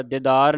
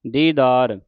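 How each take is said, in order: First: ਦੀਦਾਰ with a short, quick first vowel; wrong pronunciation demo. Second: ਦੀਦਾਰ with a long "dee" first syllable; correct pronunciation demo. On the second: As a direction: hold both long vowels in ਦੀਦਾਰ, "dee-daar". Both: Shown as a demonstration. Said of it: "ਦੀਦਾਰ ਨਹੀਂ ਕਹਿ ਦੇਣਾ".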